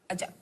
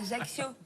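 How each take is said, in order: First: The word is cut short, final vowel dropped. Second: The word ends with its full final vowel. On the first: The speaker calls it right. "il faut pas prononcer la fin des mots" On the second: The speaker calls it wrong. "Tu dis pas"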